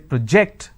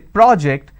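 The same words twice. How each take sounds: First: The stress is on the second syllable. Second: The stress is on the first syllable. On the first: The word is a verb. "that becomes a verb" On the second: The word is a noun. "that becomes a noun"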